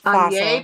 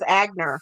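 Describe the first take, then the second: First: The name is said with French sounds. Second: The name is said with German sounds. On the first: The speaker calls it wrong. "that's the French pronunciation for a German name" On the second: The speaker calls it right. "So I think it actually is Agner"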